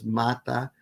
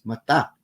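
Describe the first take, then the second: First: "mata" stressed on MA, said MA-ta; Malay "mata" with first-syllable stress, MA-ta. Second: "mata" stressed on TA, said ma-TA; stress on last syllable. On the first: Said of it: "accent on the first syllable". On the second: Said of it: "in all Philippine languages that preserve accent patterns". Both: Shown as a demonstration.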